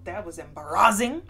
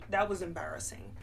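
First: EMBARRASSING burst out loud, pitch lifting at the end; emphatic. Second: Said in the usual way. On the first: Real, not acted. Storyteller confiding an embarrassing story, emphatic. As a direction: punch out "embarrassing" loudly with a rising finish. Emphatic first take of repeated phrase.

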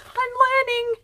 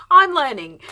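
First: High sing-song "I'm learning"; playful high voice. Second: "I'm" punched louder, falling tune; louder repeat. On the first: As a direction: chirp "I'm learning" up high like a proud kid. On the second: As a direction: say "I'm learning" again, firmer and louder. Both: Pretend.

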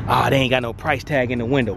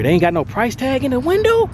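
First: Said in the usual way. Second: High, incredulous question; raised, disbelieving check of the window; surprised question. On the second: Real, not acted. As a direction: ask it like you can't believe it. Surprised no price tag.

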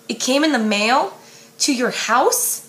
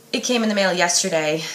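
First: Disbelieving question, pitch rising on in; shocked echo. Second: Said in the usual way. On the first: Acted. Lara Jean echoing Peter in shock, disbelieving rising question. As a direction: echo his words back in disbelief. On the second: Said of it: "he sighs".

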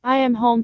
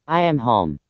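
First: Wolf faking a softer, higher mother voice; wolf pretending to be mother, softly. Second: Much lower wolf voice, I am home; wolf pretending to be mother, much lower; deep wolf voice. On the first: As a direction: coax them sweetly. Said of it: "and said in a soft voice". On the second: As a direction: say it low and gruff-sounding like a wolf. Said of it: "said in his deep voice".

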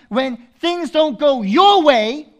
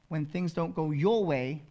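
First: Slow, high and loud, rising on your; loud drawn-out rising phrase; preached emphasis. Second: Said in the usual way. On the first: Acted. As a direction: lean into it from the pulpit.

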